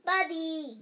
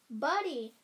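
First: Put-on loud excited toddler yell. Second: Put-on excited toddler shout; yelling. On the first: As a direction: shout the name with glee. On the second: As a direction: call the name out loud. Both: A narrator's reading. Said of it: "yelled the bean".

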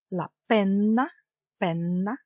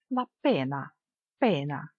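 First: "пенна" with a long held N; double N. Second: Said in the usual way. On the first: Shown as a demonstration. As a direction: linger on the N in "пенна". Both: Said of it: "з однією або подвоєною літерою".

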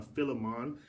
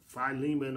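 First: Philemon said as FILL-uh-mahn; short FILL and open MAHN in Philemon; alternate pronunciation. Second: Philemon said as fy-LEE-mun; long FY, then LEE in Philemon; first pronunciation. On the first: Preacher offering both names, Philemon as FILL-uh-mahn. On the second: Preacher offering both names, Philemon as fy-LEE-mun. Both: Shown as a demonstration. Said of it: "Depends on how it was pronounced".

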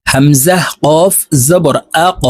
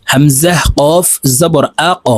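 First: Slow, the final ক pushed upward with a bounce; upward-pushed qalqala. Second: Slow syllable drill, echoing the ক; slow drilled recitation. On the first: Teacher demonstrating qalqala for students, pushed-up echo. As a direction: push the final ক upward with a knock. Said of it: "উপরের দিকে ধাবিত করে ধাক্কা দিয়ে উচ্চারণ করব". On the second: Teacher drilling students in Quranic letters, slow bounce. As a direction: recite it slowly, bouncing the final ক. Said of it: "আমার সঙ্গে বলে শিখে নিন". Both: Shown as a demonstration.

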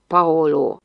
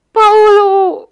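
First: Said in the usual way. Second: Very high, loud cry of the name; scream. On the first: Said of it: "Mintha nem is kiáltotta volna". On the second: A narrator's reading. Big girl's scream slipping out at Paolo, high shriek. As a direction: let the name burst out as a shriek. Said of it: "szaladt ki a sikoly".

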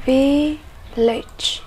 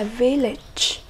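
First: "Village" split into two drawn-out syllables; teacher's slow, separated "Village". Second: Said in the usual way. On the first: Shown as a demonstration. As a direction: pause between the syllables of "Village". Teacher breaks word into syllables.

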